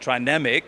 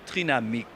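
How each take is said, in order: First: It is pronounced with English sounds. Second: It is pronounced with French sounds. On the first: "we are an international company" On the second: "I personally like Trinamic, the French one"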